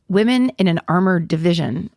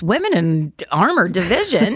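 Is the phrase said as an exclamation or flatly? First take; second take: flat; exclamation. First: It is read flatly, without exclamation. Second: It is said as a surprised exclamation. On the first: The speaker calls it wrong. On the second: The speaker calls it right.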